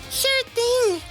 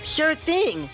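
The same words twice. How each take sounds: First: The voice is put on as more feminine. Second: The voice is plain and less feminine.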